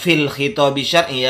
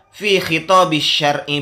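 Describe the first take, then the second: First: The first word ends with an l sound. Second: The first word has no final l sound. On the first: The speaker calls it wrong. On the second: The speaker calls it right. "Jadi kalau dijelaskan"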